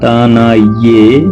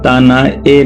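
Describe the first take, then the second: First: The last syllable begins with a 'y' glide. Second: The last syllable is a bare 'e' vowel. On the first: The speaker calls it right. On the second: The speaker calls it wrong. "यहाँ तना ए नहीं बोलेंगे"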